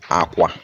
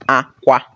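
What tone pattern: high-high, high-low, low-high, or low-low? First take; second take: low-low; high-high. First: Both syllables are on a low tone. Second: Both syllables are on a high tone. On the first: It means bed. "We are using low and low tone" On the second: It means cry. "We are using high, high tone"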